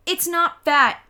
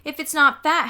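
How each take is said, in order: First: Loud high defensive shout. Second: Loud high taunting comeback; mocking retort. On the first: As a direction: yell it in her defence. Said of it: "I shouted". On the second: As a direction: throw it back mockingly. Sheila mocks back. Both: A narrator's reading.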